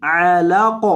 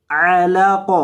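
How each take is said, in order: First: علق with a clear throaty ع and silent ق; clear ain. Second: علق said the mistaken way; wrong reading. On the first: Teacher showing the right ع in علق. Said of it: "عین کی آواز آئے گی". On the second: Teacher showing a wrong علق. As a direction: say علق wrongly, without the clear ع. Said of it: "علق نہیں". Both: Shown as a demonstration.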